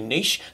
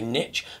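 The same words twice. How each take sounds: First: The word is said the British way. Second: The word is said the American way. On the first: This is how the word is said here. The speaker calls it right. "they don't say niche" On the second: This is how others say the word. The speaker calls it wrong. "having butchered our language, they say niche"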